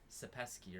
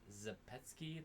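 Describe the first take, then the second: First: The name begins with an S sound. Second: The name begins without an S sound. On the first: This is how others said it. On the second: This is the speaker's own way of saying it.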